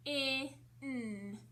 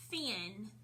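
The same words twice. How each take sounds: First: "F-I-N" as separate sounds fff, short i, nnn, not letter names; sounded out. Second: Said in the usual way. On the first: Shown as a demonstration. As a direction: stretch each sound of "F-I-N" with gaps between. Teacher breaks word into sounds.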